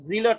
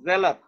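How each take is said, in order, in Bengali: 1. প্রথম স্বরধ্বনিটি 'see' শব্দের 'ee'-এর মতো শোনায়। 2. প্রথম স্বরধ্বনিটি 'bed' শব্দের 'e'-এর মতো শোনায়। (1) "জিলট না" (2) "এ এ ই এর যেটা উচ্চারণ, এটা এ"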